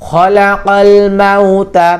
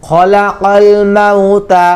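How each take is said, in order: The two takes are said the same way.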